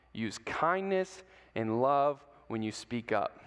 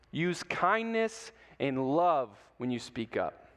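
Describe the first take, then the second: First: Slow, low, soft repeat with kindness stressed; softer repeated key line. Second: Slow, stressed kindness; emphatic key line. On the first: Preacher repeats key lesson again, lower and softer. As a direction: settle it in gently. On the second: Preacher repeats key lesson to kids, slow and emphatic. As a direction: lean into kindness slowly. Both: Shown as a demonstration. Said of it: "repeated key line".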